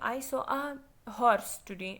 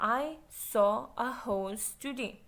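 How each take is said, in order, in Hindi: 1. horse में r उच्चारित होता है। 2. horse में r मौन रहता है। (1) "आप ये नहीं बोलेंगे" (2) "यू विल से"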